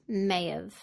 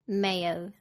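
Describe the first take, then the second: First: Have is reduced and joined to may. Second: The same.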